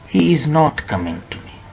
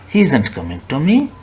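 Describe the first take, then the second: First: The words are said separately as is not. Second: The words are contracted into isn't. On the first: The speaker calls it wrong. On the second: The speaker calls it right.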